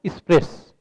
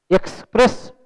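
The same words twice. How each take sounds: First: "एक्सप्रेस" said as "ispres", no K sound; village mispronunciation. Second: Said in the usual way. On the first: Shown as a demonstration. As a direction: reduce "एक्सप्रेस" to is-pres. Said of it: "गांव के लोग उसको". ("एक्सप्रेस" को "इस्प्रेस" जैसा बोलकर) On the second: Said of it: "बोलने में ज़्यादा ताकत लगती है".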